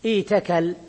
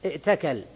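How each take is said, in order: First: ايتكل as iitakal, long ii, no glottal stop; hamza turned ya. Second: ائتكل as i'takal, glottal stop before t; original with hamza. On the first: Teacher shows the result of substitution, ايتكل with long ii. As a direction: glide through a long i in ايتكل to a single ta. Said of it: "ثم تبدل الهمزة ياء فتقول". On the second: Teacher confirms this is the origin, ائتكل with audible hamza. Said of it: "هذا الأصل". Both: Shown as a demonstration.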